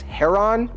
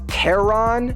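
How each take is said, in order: First: The name begins with a breathy H sound. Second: The name begins with a hard K sound. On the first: The speaker calls it right. "we're supposed to pronounce it as Heron, like without the, the C or K" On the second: The speaker calls it wrong. "His name is often pronounced Charon in English-speaking countries"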